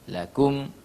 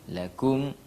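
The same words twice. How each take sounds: No difference in how they are said.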